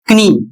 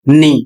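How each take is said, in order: First: The word starts with a k sound before n. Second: The word starts with an n sound, no k. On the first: The speaker calls it wrong. "यह बिल्कुल गलत है" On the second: The speaker calls it right. "इसका उच्चारण होगा नी"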